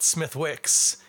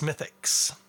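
First: The W sound in the middle is pronounced. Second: The W sound in the middle is silent. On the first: The speaker calls it wrong. "it's not Smithwix" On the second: The speaker calls it right. "it's Smithix"

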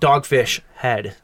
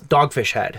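First: The stress falls on the word Head. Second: The stress falls on the word Dogfish. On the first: It sounds like something unpleasant to experience. The speaker calls it wrong. "not Dogfish Head" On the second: It names the brewery. The speaker calls it right. "It's Dogfish Head"

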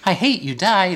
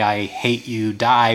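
First: It is said in a happy, sweet tone. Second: It is said in a plain, unfriendly tone.

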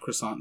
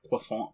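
First: It is pronounced the English way. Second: It is pronounced the French way. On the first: The speaker calls it wrong. "It's not croissant" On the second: The speaker calls it right. "It's French"

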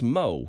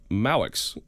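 First: The name is said the French way. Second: The name is said as it is spelled. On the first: The speaker calls it right. "But it's pronounced" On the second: The speaker calls it wrong. "It looks like"

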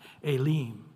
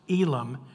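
First: The first vowel sounds like 'ay', Spanish-style. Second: The first vowel sounds like 'ee', English-style. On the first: "the E has an A sound and the I has an E sound" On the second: "how do you pronounce Elim?"

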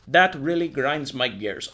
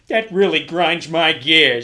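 First: It is said in the speaker's ordinary reading voice. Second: It is said in an imitated cartoon-character accent. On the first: The speaker calls it wrong. "I've been doing this thing in the wrong accent" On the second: The speaker calls it right. "I should have been like"

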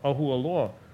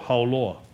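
First: The name is said in full with every vowel. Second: The name is said shortened with vowels run together. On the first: This is the real name of the place. The speaker calls it right. "was called Ahualoa" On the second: This is how locals mangled it in Pidgin. The speaker calls it wrong. "and we would go Hauloa"

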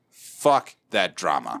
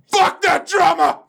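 First: It is said at a normal volume. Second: It is said loudly, almost shouted.

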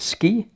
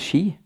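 First: It is said with the common foreign pronunciation. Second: It is said with Norwegian pronunciation.

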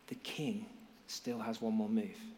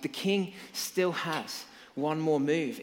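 First: It is said quietly, almost mouthed. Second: It is said loudly and excitedly.

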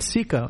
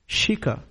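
First: The word begins with a plain s sound. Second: The word begins with an sh sound. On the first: The speaker calls it wrong. "Not Sika" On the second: The speaker calls it right. "It's Shika"

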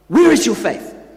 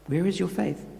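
First: It sounds harsh and scolding. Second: It sounds deadpan and gently teasing.

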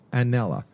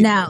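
First: The name ends with an extra vowel after l. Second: The name ends on the l, no final vowel. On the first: The speaker calls it wrong. "Did I pronounce that right?" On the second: The speaker calls it right. "No A on the end"

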